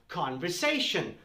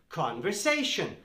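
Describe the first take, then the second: Both takes have the same delivery.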